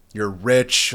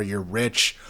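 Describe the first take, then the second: First: Rich leaned on and said louder; louder insistent second You're rich; emphatic repeat. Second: Said in the usual way. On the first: Shown as a demonstration. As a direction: hammer the point home on rich.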